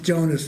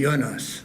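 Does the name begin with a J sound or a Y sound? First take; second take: J sound; Y sound. First: The name begins with a J sound. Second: The name begins with a Y sound. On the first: The speaker calls it wrong. "it's not pronounced Jonas in German" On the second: The speaker calls it right. "the J is like a Y"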